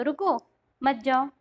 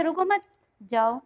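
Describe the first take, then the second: First: "रुको", clear pause, then "मत जाओ" together; comma after रुको. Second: "रुको मत" joined, clear pause, then "जाओ"; comma after मत. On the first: Teacher showing one interpretation by comma placement, pause after "रुको". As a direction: break right after "रुको", keep "मत जाओ" joined. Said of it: "अगर आप यहाँ कॉमा लगाओ तो". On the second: Teacher showing the opposite interpretation by comma placement, pause after "मत". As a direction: hold the break until after "मत", then say "जाओ" alone. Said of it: "अगर उल्टा हम यहाँ लगाए". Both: Shown as a demonstration.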